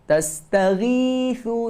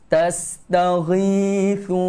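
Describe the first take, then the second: First: The gh sound is thin and light. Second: The gh sound is heavy and full. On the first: The speaker calls it wrong. "Jangan jadi nipis. ... Salah" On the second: The speaker calls it right. "Huruf ghin ni tebal"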